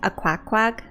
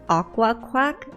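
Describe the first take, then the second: First: It is split as a, quack, quack. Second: It is split as aqua, quack. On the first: The speaker calls it wrong. "I thought it was pronounced a quack quack" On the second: The speaker calls it right. "so it's pronounced aqua quack"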